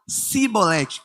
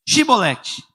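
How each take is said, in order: First: The word begins with an s sound. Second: The word begins with an sh sound. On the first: The speaker calls it wrong. "Eles pronunciavam cibolete com S" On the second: The speaker calls it right. "shibolete com C H"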